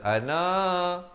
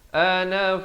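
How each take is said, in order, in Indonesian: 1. Vokal akhir dibaca panjang. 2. Vokal akhir dibaca pendek. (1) "na jangan panjang ... tak betul" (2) "Bacanya ana fa"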